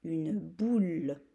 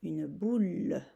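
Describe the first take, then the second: First: Une boule drawn out very slowly; slow dictation. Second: Une boule said slowly, ending with a falling tone; slow dictation repeat. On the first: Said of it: "un mot spécial Noël". (une boule dictée très lentement) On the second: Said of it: "Je t'aide un peu". (une boule lentement, répétée) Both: Shown as a demonstration.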